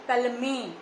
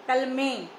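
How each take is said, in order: No difference in how they are said.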